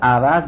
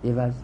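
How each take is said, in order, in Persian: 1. مصوت اول 'a' است. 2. مصوت اول 'i' است. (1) "عوض به فتح عین" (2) "بخونید عوض عوض عوض به کسر عین"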